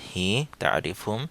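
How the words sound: It is said in a Saudi dialect pronunciation. "Saudi উচ্চারণে"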